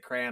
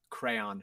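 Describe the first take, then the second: First: The word is squeezed into one short syllable. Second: The word is said with two full syllables. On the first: The speaker calls it wrong. "there's an A Y. Why are you saying it like that?" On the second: The speaker calls it right. "Crayon for sure"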